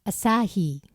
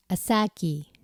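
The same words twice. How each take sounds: First: "アサヒ" as a-SAA-hee, with an h; English-style "アサヒ", ending in "hee"; English-style Asahi. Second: "アサキ" as a-SAA-kee, like "a sake"; English-style "アサキ", ending in "kee". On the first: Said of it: "絶対似てると思わない？". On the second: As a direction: say "アサキ" with a stretched middle and a k ending. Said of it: "英語はケじゃなくてキって発音するんだよ". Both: Shown as a demonstration.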